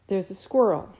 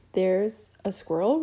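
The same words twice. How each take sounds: First: "There's a squirrel" stated firmly, falling at the end; slow, pointed statement. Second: "There's a squirrel" echoed as a question, rising at the end; puzzled repeat. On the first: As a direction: spell it out as if pointing at each word. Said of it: "speaking more slowly". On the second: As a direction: repeat it back, not understanding. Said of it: "repeated her father". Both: A narrator's reading.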